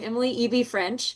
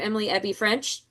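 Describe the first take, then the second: First: The middle name is said as two letters. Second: The middle name is said as one word. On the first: The speaker calls it right. "pronounce your own name correctly" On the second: The speaker calls it wrong. "they'll probably say Ebby because they love to mispronounce"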